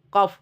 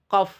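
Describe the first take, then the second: Both takes have the same delivery.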